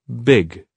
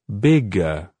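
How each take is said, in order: First: A very short vowel follows the final g. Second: A long, exaggerated vowel follows the final g. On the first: "reducing the length of the vowel sound until it is really short, but still pronounced" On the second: "We're going to say a longer sound to finish the words, much longer than it really sounds like in speech"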